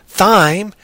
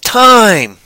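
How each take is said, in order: First: The word begins with a th sound. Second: The word begins with a plain t sound. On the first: The speaker calls it wrong. "It's not thyme" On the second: The speaker calls it right. "so that H is silent"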